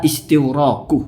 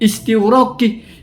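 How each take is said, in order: First: The word ends with a u vowel. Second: The word ends with an i vowel. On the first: The speaker calls it right. "kita kan sepakat misalnya ada istighroku" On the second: The speaker calls it wrong. "orang salah baca terakhir istighraqi"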